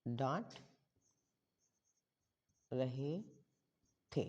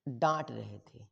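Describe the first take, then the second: First: Slow dictation. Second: Said in the usual way. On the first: Shown as a demonstration. Spells phrase out while writing.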